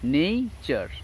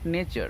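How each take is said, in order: First: The first vowel is a long 'ay' sound. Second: The first vowel is a short 'eh' sound. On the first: The speaker calls it right. "It is নেইচার" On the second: The speaker calls it wrong. "Not নেচার"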